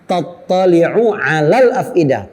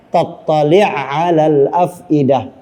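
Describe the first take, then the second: First: The first word ends with a full vowel. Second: The final vowel is dropped and the sounds merge.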